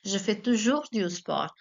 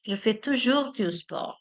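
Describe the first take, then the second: First: Toujours slightly emphasised in the middle; teacher repeating to stress the adverb. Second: French teacher modelling the sentence; model sentence. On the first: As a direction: lean on toujours. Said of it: "placement of the adverb". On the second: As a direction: read the French sentence out clearly for students. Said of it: "the sentence here we have is". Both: Shown as a demonstration.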